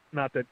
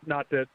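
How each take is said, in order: Both takes have the same delivery.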